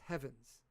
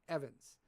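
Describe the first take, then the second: First: The name starts with an audible H sound. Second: The name starts with a vowel, no H sound. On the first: "because there's a fucking H in it" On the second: "I don't pronounce the H"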